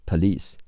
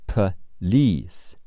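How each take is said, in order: First: Said in the usual way. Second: "Police" split slowly, stress on "lice"; stress on second syllable. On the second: Shown as a demonstration. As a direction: draw out "Police" as puh-LEECE. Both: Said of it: "重音在li".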